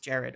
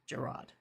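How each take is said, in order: First: The name is said in the British way. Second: The name is said in the American way. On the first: "I understand it's it's Jared over there" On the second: "In, in the U S, that name, Gerrard, is Gerard"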